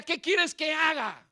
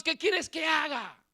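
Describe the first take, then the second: First: Retold cry to God. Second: Slow anguished shout; shout to God. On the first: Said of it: "Así gritaba yo". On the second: Retold or imitated. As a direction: cry it out slowly at God, demanding. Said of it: "y le gritaba a Dios". (grito lento y angustiado a Dios)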